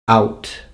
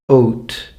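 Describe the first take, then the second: First: The vowel is pronounced as in the 1900s. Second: The vowel is pronounced as in the 1500s. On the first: "nineteen hundreds" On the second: "fifteen hundreds"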